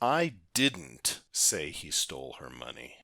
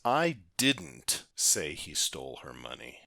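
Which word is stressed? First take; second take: didn't; didn't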